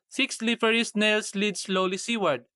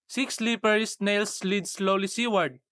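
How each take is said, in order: Both takes have the same delivery.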